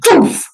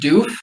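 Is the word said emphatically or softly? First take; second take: emphatically; softly. First: The word is said with strong emphasis. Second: The word is said softly and gently. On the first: "when you put emphasis on it" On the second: "soft and gentle"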